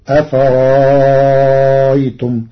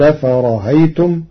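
First: The middle becomes a long, stretched vowel. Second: The middle glottal stop is softened, not fully stopped. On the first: "وإبدالها حرف مد مع الإشباع" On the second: "التسهيل"

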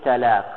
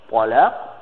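First: The first consonant is a plain, light t. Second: The first consonant is a heavy, emphatic t. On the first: The word means meeting or union. "я сказал таляк, как я говорю, таляк я сказал, как обычно" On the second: The word means divorce. "в арабском языке есть буква «по», есть буква «т»"

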